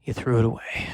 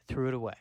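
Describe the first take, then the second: First: Low bitter repeat. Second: Fading echo. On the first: Caveman repeats accusation. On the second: Caveman echoes accusation. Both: Acted.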